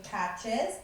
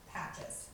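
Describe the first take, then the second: First: "patches" tapped as pat-ches, two beats; split into syllables. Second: "patches" said softly as a single whole word, one tap; one beat. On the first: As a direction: say "patches" broken into two taps. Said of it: "patches has two syllables". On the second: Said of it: "just tapping their knees once". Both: Shown as a demonstration.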